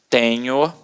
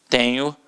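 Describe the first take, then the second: No difference in how they are said.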